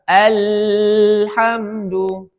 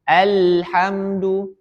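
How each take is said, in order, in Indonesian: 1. Huruf L dipanjangkan dengan tekanan kuat. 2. Huruf L dipanjangkan dengan tekanan sedang. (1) "Tidak boleh mengalirnya deras"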